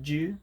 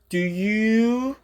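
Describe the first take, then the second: First: The two words are merged into one quick syllable. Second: The two words are said clearly and separately. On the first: "빠르게 얘기할 때 그냥 합쳐서" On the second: "do you로도 정확히 표현을 하겠지만"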